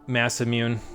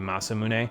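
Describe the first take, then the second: First: The name is said with English-style vowels. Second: The name is said with Japanese-style vowels. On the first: The speaker calls it wrong. "I've always just pronounced it Massamune" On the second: The speaker calls it right. "I have a hard time pronouncing it in the exact Japanese, but it'd probably be Masamune"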